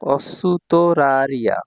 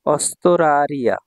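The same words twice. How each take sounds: First: অসুতরারিয়া very slowly, with a full "su" before "to"; slow teaching model of অসুতরারিয়া, "su-to" kept separate; careful correct pronunciation. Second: অস্তরারিয়া with "st" run together, no u between; অস্তরারিয়া as spoken, the u after s dropped; common spoken pronunciation. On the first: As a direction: sound out every syllable of অসুতরারিয়া, keeping the u after s. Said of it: "সঠিক উচ্চারণ হচ্ছে অসুতরারিয়া". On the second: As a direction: say অস্তরারিয়া slowly, joining s straight onto t. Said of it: "এভাবেই উচ্চারণ করা হয়". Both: Shown as a demonstration.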